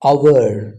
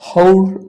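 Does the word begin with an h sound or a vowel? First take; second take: vowel; h sound. First: The word begins directly with a vowel. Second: The word begins with an h sound. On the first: The speaker calls it right. "ಇದು ಅವರ್ ಅವರ್" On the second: The speaker calls it wrong. "ಇದು ಹೌರ್ ಅಲ್ಲ"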